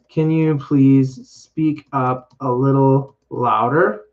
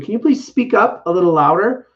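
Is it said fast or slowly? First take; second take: slowly; fast. First: It is said slowly. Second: It is said fast.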